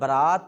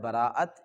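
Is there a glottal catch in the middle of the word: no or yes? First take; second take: no; yes. First: The middle vowel runs smoothly without a catch. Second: A glottal catch splits the vowels in the middle. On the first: The wedding party that goes with the groom. "अगर बरात पढ़ा जाए हमज़ा के बगैर" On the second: Breaking off ties with someone. "एक होता है बराअत"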